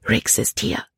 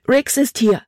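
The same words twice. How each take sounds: First: Hushed, breathy, urgent news; quick warning. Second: High, urgent cry; alarmed exclamation. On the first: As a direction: pass the warning on under your breath. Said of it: "sagte Libby schnell". (hastige, gedämpfte Warnung) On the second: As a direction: call it out in alarm. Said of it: "rief sie aus". (aufgeregter, hoher Ausruf) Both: A narrator's reading.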